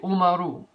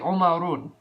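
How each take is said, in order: First: The word ends on a vowel, without n. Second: The word ends with an added n sound. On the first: The speaker calls it right. "You have to say Umaru" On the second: The speaker calls it wrong. "you can never say Umarun"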